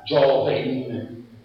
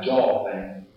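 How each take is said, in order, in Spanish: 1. La n final se pronuncia clara y completa. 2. La n final es débil y apenas se oye. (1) "No era joven" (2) "la N final no era muy marcada, ma tenía una pronunciación de tipo prevelar"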